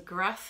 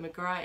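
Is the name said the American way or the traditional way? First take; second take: American; traditional. First: The name is said the American way. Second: The name is said the traditional way. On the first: The speaker calls it wrong. "It's pronounced McGrath in America" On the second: The speaker calls it right. "McGrath is actually the correct pronunciation"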